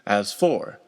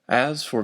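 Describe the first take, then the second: First: The stress falls on the second word. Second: The stress falls on the first word. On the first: The speaker calls it wrong. "with the word as unstressed and the word for stressed" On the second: The speaker calls it right. "emphasize the stressed and unstressed pattern"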